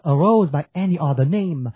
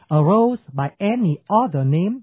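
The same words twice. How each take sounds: First: The stresses fall loosely, in a natural rhythm. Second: Each beat is stressed in a strict, even rhythm. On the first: The speaker calls it right. "Đó là đọc đàng hoàng tử tế" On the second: The speaker calls it wrong. "nhưng mà khi đọc thì không ai đọc như thế"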